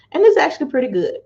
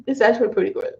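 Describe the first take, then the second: First: Quick, higher pleasantly surprised; almost can't believe it's tasty; pleased surprise. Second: Said in the usual way. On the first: Real, not acted. Vlogger tasting cranberry grape drink, pleasantly surprised.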